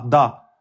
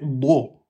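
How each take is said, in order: First: The consonant is plain, with a light open vowel. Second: The consonant is heavy, with a dark rounded vowel. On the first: The speaker calls it wrong. "essayez de ne pas dire da. Da. C'est pas de l'allemand" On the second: The speaker calls it right. "c'est pas da, c'est do"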